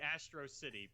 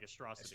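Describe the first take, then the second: First: The name is said at a normal, unhurried pace. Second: The name is said quickly, run together.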